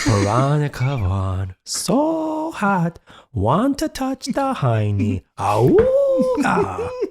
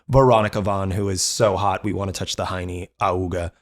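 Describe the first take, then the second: First: It is said in an imitation of Billy's voice. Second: It is said in his own normal voice.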